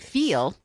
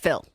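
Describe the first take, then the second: First: The vowel is drawn out fully. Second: The vowel is clipped short. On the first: "So it's not feel" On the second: "we like to chop words, like shorten them as much as possible"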